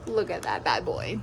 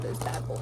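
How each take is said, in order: First: Deep, drawn-out food hype; low slow voice. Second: Breathy whisper of food hype. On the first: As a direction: drop low and savor each word. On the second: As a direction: whisper it like a secret treat. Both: Pretend. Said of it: "The O Gs knows I talk like this".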